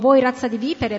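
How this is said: It is said in a harsh, rebuking tone. The speaker is sternly condemning the listeners. The speaker calls it right. "Quando Gesù stava riprendendo quegli ipocriti"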